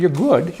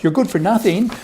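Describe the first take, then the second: First: Said in the usual way. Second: "good for nothing" higher and pushed as the twist; punchline stress. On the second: Shown as a demonstration. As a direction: land the put-down on "nothing".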